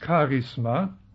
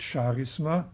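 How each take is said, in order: First: It begins with a German-style ch sound. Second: It begins with a French-style sound. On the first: This is the original Greek form of the word. The speaker calls it right. "Das griechische Wort ist Charisma ... der griechische Buchstabe wird wie CH im Deutschen ausgesprochen" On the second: This is a French way of saying the word. The speaker calls it wrong. "nicht Charisma, wie einige meinen, das ist die französische"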